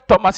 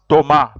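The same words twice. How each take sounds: First: The final S is sounded, English style. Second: The final S is silent, French style.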